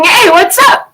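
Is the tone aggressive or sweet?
sweet. It is said in a sweet, friendly tone.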